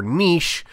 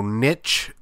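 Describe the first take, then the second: First: Niche rhyming with quiche; niche as NEESH. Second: Niche rhyming with itch; niche as NITCH. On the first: Polling listeners on the word, niche as fancy NEESH. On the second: Polling listeners on the word, niche as NITCH. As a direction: say niche the less fancy way, with a ch. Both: Shown as a demonstration. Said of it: "how fancy are you".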